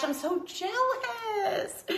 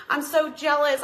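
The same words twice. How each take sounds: First: Mock whiny jealousy. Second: Said in the usual way. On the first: Jealous of viewer's snow.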